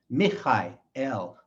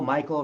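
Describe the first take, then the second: First: It is said with a Hebrew pronunciation. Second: It is said with an English pronunciation. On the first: The speaker calls it right. "In Hebrew, it's" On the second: The speaker calls it wrong. "their names in English are"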